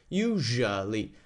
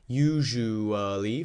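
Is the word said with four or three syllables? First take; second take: three; four. First: The word is said with three syllables. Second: The word is said with four syllables. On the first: "it can also be said as a three-syllable word" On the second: "four-syllable word"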